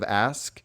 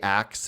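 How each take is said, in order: First: The word ends with an sk sound. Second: The word ends with a ks sound. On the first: "instead of "ask,"" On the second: "will say "ax" instead of"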